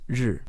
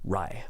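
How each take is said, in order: First: The word ends in a buzzy 'r' sound. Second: The word ends in an 'eye' vowel. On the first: The speaker calls it right. "It's 日" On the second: The speaker calls it wrong. "go totally off the wall and go rai"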